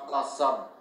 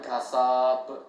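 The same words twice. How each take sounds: First: The vowel is said short, not stretched. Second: The vowel is stretched out long. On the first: The speaker calls it right. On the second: The speaker calls it wrong.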